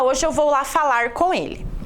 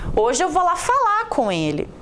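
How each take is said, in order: First: The final R of the verb is pronounced. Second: The final R of the verb is dropped. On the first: "Dificilmente nós vemos alguém dizendo" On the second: "Nós falamos, ... eu tirei aqui o R"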